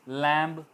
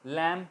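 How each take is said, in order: First: The word ends with an audible b sound. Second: The word ends on m with no b. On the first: The speaker calls it wrong. "लैम्ब नहीं कहेंगे" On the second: The speaker calls it right. "लैम कहेंगे"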